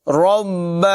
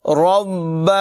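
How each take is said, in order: The two takes are said the same way.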